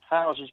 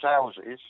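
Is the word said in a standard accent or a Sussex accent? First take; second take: standard; Sussex. First: It is said in a standard accent. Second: It is said in a Sussex accent.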